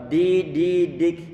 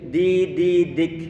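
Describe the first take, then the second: Both takes have the same delivery.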